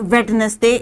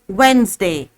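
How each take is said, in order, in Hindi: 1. बीच का d बोला जाता है। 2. बीच का d साइलेंट है। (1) "It is not Wednesday" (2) "it's Wednesday"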